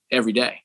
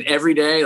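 First: Proud. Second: Incredulous echo. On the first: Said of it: "I proudly said". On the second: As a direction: echo "Every day" as a doubtful question. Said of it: "He said". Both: Retold or imitated.

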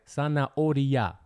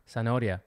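First: Zanahoria drawn out syllable by syllable; slowed-down teaching of Zanahoria; slow enunciation. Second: Said in the usual way. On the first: Shown as a demonstration. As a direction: say Zanahoria slowly, stretching each syllable for a learner. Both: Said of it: "This one's kinda hard".

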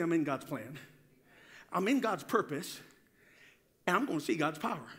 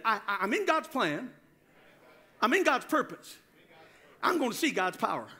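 First: Said in the usual way. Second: Firm, emphatic declaration; like you mean it. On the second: Shown as a demonstration. Preacher leads congregation in claiming God's plan, meaning it. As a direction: declare it with conviction. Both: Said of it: "say it like you mean it".

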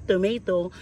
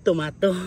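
First: Tomato said as "to-MAY-to", American style; Tomato pronounced to-may-to; English tomato. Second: Tomato said "to-MA-to", with an open ah; tomato pronounced to-mah-to; local tomato. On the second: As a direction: say "tomato" the Filipino way, ah not ay. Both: Shown as a demonstration. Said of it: "Ang tomatoes dito ay tomatoes".

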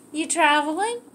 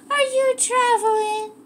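First: Said in the usual way. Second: Pitched way up, sing-song question to the dog; scene: owner teasingly asks her dog if it's traveling, in a very high voice; high dog-talk question. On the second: Real, not acted. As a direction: lift the whole question high like cooing at a puppy. Repeats question to dog, much higher.

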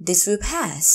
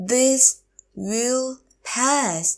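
First: Said in the usual way. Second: This, will, pass, drawn out with gaps; slow teacher model of "This will pass"; word by word. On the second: Shown as a demonstration. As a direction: stretch and separate each word of "This will pass". Teacher repeats phrase word by word.

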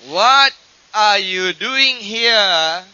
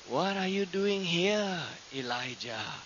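First: Sudden booming voice. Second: Soft, slow question, dropping low on the name; quiet divine voice. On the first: Shown as a demonstration. Preacher reading the voice that came to Elijah, loud and drawn out. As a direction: stretch it out slowly and ring it out. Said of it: "difference between the still small voice and suddenly a voice". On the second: Retold or imitated. God asking Elijah at the cave entrance, soft and slow. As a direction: ask it gently, without raising the voice. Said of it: "then that voice said".

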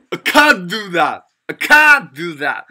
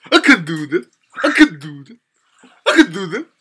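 First: CAN'T loud, long and falling, t dropped; stress on CAN'T. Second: Loud "I k' DO that", can barely there; stress on DO. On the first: Teacher showing the negative sentence, stressed "can't". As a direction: punch and stretch "can't" before "do that". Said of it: "그럼 부정일 때는?". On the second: Teacher copying how American speakers say it, stressed "do". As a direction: punch "do", swallow "can", tail rising. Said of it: "흑형들 어떻게 하냐". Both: Shown as a demonstration.

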